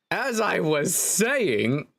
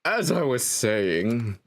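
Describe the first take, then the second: First: High, very slow, sing-song resumption; trial narrator voice. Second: Slow narrator at natural pitch, falling. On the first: Narrator resuming the tale after a cough, high drawn-out voice. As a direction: stretch it out grandly, pitched up. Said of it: "I need to give a separate voice for myself". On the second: Narrator resuming the tale for the player, slow narrator voice. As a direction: settle slowly into the narrator's voice. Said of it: "If it's a narrator, I need to give a separate voice". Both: Shown as a demonstration.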